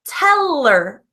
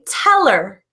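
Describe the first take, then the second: First: The H sound in her is dropped. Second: The H sound in her is dropped.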